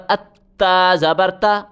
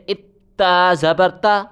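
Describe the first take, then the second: No difference in how they are said.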